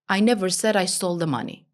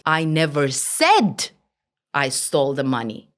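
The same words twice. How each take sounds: First: No word is stressed; the delivery is flat. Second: The stress falls on the word said. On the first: Nothing in the message stands out. "Nothing is important" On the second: It was implied rather than said. "Maybe I implied different meaning"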